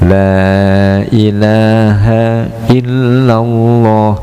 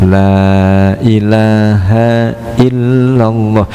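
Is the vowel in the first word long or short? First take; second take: long; long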